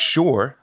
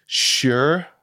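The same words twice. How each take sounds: First: "sure" with an aw vowel; "sure" like shore. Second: "sure" with an American er vowel; drawn "sure", rising, as "shur". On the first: Actor giving the other option, "sure" as "shore". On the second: Actor giving an example word, "sure" as "shur". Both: Shown as a demonstration. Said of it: "'cause you can also say".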